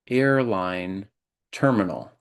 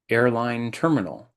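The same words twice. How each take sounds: First: It is said more slowly than normal. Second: It is said at a normal, regular speed. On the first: "I'll repeat it more slowly" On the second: "I'll say it in a regular way"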